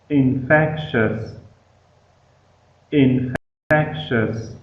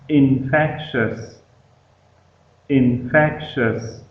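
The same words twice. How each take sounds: No difference in how they are said.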